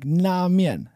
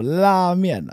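First: The word begins with a sound close to N. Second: The word begins with a clear L sound. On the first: The speaker calls it wrong. "I think it sounds like 拉面, like N almost" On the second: The speaker calls it right. "Instead of 拉面"

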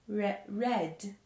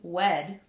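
First: The first sound is a clear R sound. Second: The first sound is a W sound. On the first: The speaker calls it right. "They say it's red" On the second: The speaker calls it wrong. "they don't say this crayon is wed"

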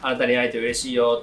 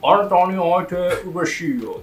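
First: It is said in normal native Japanese. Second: It is said in a cliché mock-foreigner accent.

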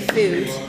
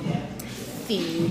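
First: The vowel sounds like the 'oo' in food. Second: The vowel sounds close to the 'ee' in feed. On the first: It is the speaker's own accent. "So, I say food" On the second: It imitates another person's native accent. "you do pronounce words very, very oddly in your native accent. Like, for example, feed"

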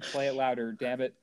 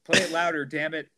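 First: It is said timidly, with embarrassment. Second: It is said forcefully, as if meant.

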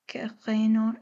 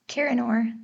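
First: It is said with a guttural French R. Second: It is said with an American accent.

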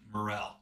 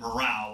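First: It sounds like morel, not like troop morale. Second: It sounds like the word morale, as in troops. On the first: This is the actual name of the mushroom. The speaker calls it right. "It's a morel" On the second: This is how it was said while growing up. The speaker calls it wrong. "I always said morale, like you and your troops"

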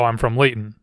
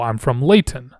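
First: The T in Layton is swallowed, not clearly released. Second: The T in Layton is clearly and strongly pronounced. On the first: It is the casual local way of saying it. "I say it like any Laytonian does" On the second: It is easier to understand but can sound pompous. "being very clear and emphasizing that"

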